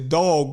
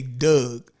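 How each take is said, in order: First: The vowel rhymes with log. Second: The vowel rhymes with rug. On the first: The speaker calls it right. "we'll pronounce all of them correctly" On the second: The speaker calls it wrong. "we're gonna say Doug"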